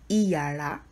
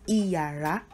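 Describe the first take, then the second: The two takes are said the same way.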